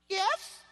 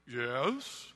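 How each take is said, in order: First: It is said in a light, ordinary voice. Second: It is said in a big, deep voice.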